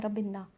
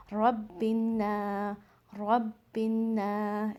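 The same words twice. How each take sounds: First: रब्बिन्ना rushed and short, the wrong way; too fast. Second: रब्बिन्ना slow, न nasal and long; stretched ghunna. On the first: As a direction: clip रब्बिन्ना quickly. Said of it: "fast नहीं पढ़ना है". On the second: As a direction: draw out the न of रब्बिन्ना. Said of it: "नून को यहाँ stretch करके पढ़ना है". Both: Shown as a demonstration.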